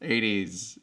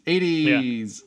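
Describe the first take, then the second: First: Said in the usual way. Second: Mock exclaim. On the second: Shown as a demonstration.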